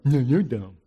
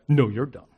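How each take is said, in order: First: It is said in a put-on mocking voice. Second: It is said in the speaker's normal voice.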